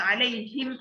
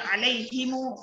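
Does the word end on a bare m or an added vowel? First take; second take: bare m; added vowel. First: The word ends on a bare m sound. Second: The word ends with an added u vowel. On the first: "ada yang dibaca sukun" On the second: "ada yang dibaca silah"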